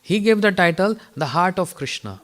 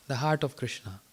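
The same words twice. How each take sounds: First: Said in the usual way. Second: "The Heart of Krishna" repeated softer and lower; quiet, reflective repeat of "The Heart of Krishna"; soft echo. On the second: Shown as a demonstration. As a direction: echo the title quietly to let it sink in.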